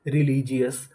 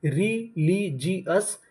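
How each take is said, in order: First: Said in the usual way. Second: religious stretched out very slowly with a rising end; slow drawn-out model word. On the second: Shown as a demonstration. Teacher to students, slowly modelling religious with a rise. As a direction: draw out religious syllable by syllable, rising. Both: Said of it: "तो पूरी meaning क्या बनी?".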